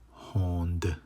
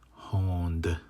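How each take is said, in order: Both takes have the same delivery.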